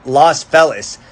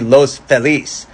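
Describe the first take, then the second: First: The name is said with an English pronunciation. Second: The name is said with a Spanish pronunciation. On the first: This is the common local form. "the common Anglo pronunciation" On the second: This matches the word's original language. "they say it should be Los Feliz"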